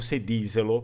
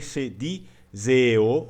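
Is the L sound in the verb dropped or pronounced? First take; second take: pronounced; dropped. First: The L sound is fully pronounced in the word. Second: The L sound is dropped from the word. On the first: "com o L cheio também" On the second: "ela pode desaparecer também ou se transformar num E"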